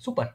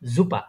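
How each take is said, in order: First: It begins with an s sound and ends in r. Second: It begins with a z sound and ends open. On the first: This is how it is said in English. "সুপার যেটা বলি আ আমরা ইংলিশে" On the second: This is how native German speakers say it. "ওটাকে ওরা বলে কি? জুপা।"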